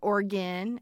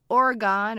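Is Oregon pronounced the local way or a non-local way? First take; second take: local; non-local. First: Oregon is pronounced the way locals say it. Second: Oregon is pronounced in a non-local way.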